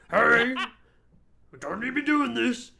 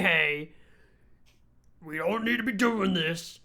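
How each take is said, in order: First: It is said in a changed, put-on creature voice. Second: It is said in an ordinary speaking voice.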